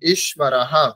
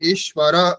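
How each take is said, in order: First: The word ends with an added echoing 'ha'. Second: The word ends on a plain vowel, no echo. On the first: The speaker calls it right. "বিসর্গের উচ্চারণ কেমন হবে? ... ঠিক, হা" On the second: The speaker calls it wrong. "এরকম নয়"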